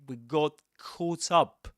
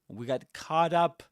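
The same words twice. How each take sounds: First: It is said with a British English accent. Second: It is said with an American English accent. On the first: "This in British English would be said quite differently" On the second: "But he says"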